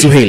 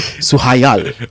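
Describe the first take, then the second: First: The name is pronounced Suhail. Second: The name is pronounced Suhayal. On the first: The speaker calls it right. "So it's Suhail" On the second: The speaker calls it wrong. "I was gonna say Suhayal"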